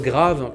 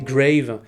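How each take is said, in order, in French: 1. Il se prononce comme un mot français. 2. Il se prononce comme un mot anglais. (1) "son titre grave" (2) "que tout le monde à Gérardmer arrêtait pas de prononcer grave, parce que tout le monde pensait à I spit on your grave"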